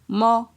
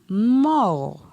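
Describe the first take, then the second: First: The syllable has a mid tone. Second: The syllable has a falling tone. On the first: "Ton moyen" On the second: "Ton descendant"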